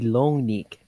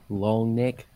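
First: The vowel in neck is a high 'ee' sound. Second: The vowel in neck is a plain 'eh' sound. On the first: The speaker calls it right. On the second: The speaker calls it wrong.

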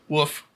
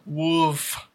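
First: The word is said without an L sound. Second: The word is said with an L sound. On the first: "There's no L" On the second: "Try it with the L"

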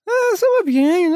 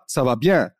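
First: It is said in an exaggerated, French-like manner. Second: It is said plainly, without exaggeration.

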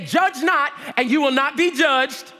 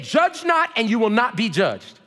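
First: It is said loudly and forcefully. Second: It is said at an ordinary, plain level.

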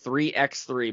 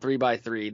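First: The x is said as the letter ex. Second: The x is not said as the letter. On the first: The speaker calls it right. "They want us to pronounce the X" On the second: The speaker calls it wrong. "It's not 3x3"

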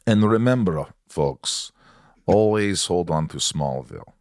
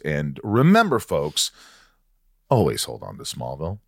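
First: It is said in a Russian accent. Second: It is said in his normal accent.

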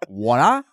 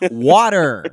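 First: The final R is dropped. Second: The final R is clearly pronounced. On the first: The speaker calls it wrong. "Not water" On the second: The speaker calls it right. "You hear how we pronounce those R's"

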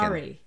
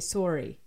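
First: It is said with an American accent. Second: It is said with a Canadian accent.

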